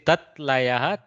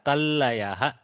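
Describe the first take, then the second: First: The first word ends with a t sound. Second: The first word ends with an l sound.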